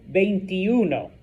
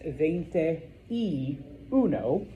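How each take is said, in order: First: The words are run together into one word. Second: Each word is said separately and distinctly. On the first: The speaker calls it right. "it just kind of blends together" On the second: The speaker calls it wrong. "literally, it's veinte y uno, but nobody actually says it like that"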